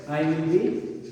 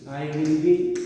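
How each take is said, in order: Both takes have the same delivery.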